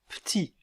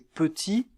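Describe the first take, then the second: First: The first vowel is dropped entirely. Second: The first vowel is clearly pronounced. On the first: "La voyelle peut ne pas être prononcée" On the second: "La voyelle peut ne pas être prononcée"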